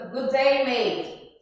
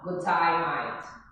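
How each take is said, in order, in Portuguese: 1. As vogais em 'day' e 'mate' soam como 'ay'. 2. As vogais em 'day' e 'mate' soam como 'eye'. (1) "Como a gente diz" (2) "Você vai dizer assim, ó"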